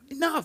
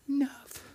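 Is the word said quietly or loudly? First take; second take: loudly; quietly. First: It is said loudly and forcefully. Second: It is said quietly and daintily.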